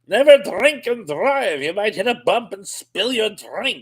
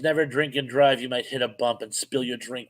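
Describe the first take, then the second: First: It is said in a slurred drunk voice. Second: It is read in a normal voice.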